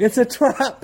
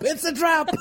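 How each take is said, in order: First: Higher, laughing warning; mock alarm. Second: Very high, laughing squawk; shrieked mock alarm. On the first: Co-host joking about escaping marriage, laughing mock alarm. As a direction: call out a joke warning through giggles. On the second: Co-host joking about fleeing marriage, high mock alarm. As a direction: squeal the warning as you crack up. Repeats warning, higher, laughing.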